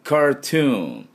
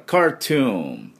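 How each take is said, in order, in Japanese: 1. Aの後のRははっきり発音される。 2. Aの後のRははっきり発音される。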